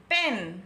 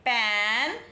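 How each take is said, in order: First: पेन with a narrow e; पेन closed and short. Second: पैन with mouth wide; पैन broad and open. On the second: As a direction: stretch the vowel in पैन. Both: Shown as a demonstration. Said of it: "किस तरह से हमने pronounce किया".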